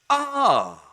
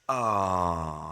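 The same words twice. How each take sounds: First: It is loud, lively and pleasant. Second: It is soft, calm and pleasant. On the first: The person feels happy and excited. "High energy, high pleasantness" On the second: The person feels calm and tender. "low energy and high pleasantness"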